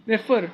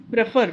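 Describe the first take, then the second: First: Prefer stressed on the second syllable, pre-FER. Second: Prefer stressed on the first syllable, PRE-fer; wrong stress demo. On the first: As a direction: land the weight on FER in prefer. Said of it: "so second one is stressed". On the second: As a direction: put the weight on PRE in prefer. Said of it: "we don't say prefer". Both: Shown as a demonstration.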